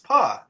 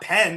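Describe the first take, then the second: First: The vowel is a reduced schwa sound. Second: The vowel is a full, clear 'e' sound. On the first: The speaker calls it right. "It's pa. Exactly" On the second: The speaker calls it wrong. "it's not pen"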